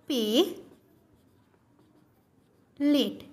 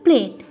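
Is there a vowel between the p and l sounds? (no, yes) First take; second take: yes; no. First: An e vowel is inserted between p and l. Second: The p and l are joined without a vowel. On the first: "শব্দের মাঝে একটা একার যুক্ত হয়েছে" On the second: "এটি আমরা উচ্চারণ করছি কি প্লেট"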